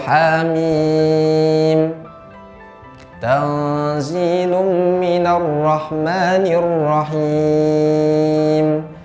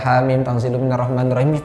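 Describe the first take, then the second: First: It is recited slowly and carefully, each letter distinct. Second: It is recited quickly, with the letters run together. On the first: The speaker calls it right. "Itu bacanya dengan tartil seperti itu" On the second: The speaker calls it wrong. "Jangan baca"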